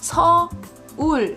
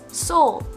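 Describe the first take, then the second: First: The name is said with Korean pronunciation. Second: The name is said with English pronunciation.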